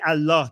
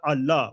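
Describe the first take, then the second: First: The word is pronounced fully and clearly. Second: The word is pronounced reduced and incompletely. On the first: This is the careful religious way to say it. "they don't say Allah" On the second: This is how non-religious people casually say it. "they don't pronounce the Allah part"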